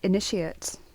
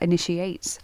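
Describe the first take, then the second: First: The word is pronounced as a noun. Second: The word is pronounced as a verb. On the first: It names a person who is starting something. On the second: It is a command to start something.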